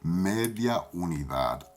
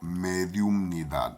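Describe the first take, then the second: First: It is said as 'media unidad' without the 'um'. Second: It is said as 'mediumnidad' with the 'um'. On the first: This is the Puerto Rican way of saying it. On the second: This is the standard way of saying it.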